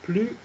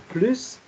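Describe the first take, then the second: First: The final S sound is silent. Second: The final S sound is pronounced. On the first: It means no more. "prononcées euh, sans le S" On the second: It means in addition. "avec le S à la fin"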